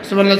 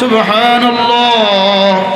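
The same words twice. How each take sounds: First: It is said fast and rushed. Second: It is said slowly and carefully.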